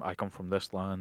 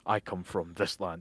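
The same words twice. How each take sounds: First: It is said plainly, without drama. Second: It is said with grand theatrical flair.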